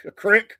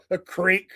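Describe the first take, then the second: First: "creek" said as "crick", short i, pitched up. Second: "creek" said with a long ee, like "eek". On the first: Showing listeners Southern words, "creek" pronounced "crick". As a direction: say "creek" to rhyme with "brick". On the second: Showing listeners Southern words, "creek" with long ee. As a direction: say "creek" to rhyme with "seek". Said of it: "one of those words you can use". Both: Shown as a demonstration.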